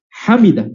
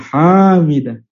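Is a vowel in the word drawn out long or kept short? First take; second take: short; long. First: The vowels are kept short. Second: A vowel is drawn out long. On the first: The speaker calls it right. "Yang benar adalah hamidah" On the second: The speaker calls it wrong. "bukan hamidah. Ya, tidak boleh panjang haknya"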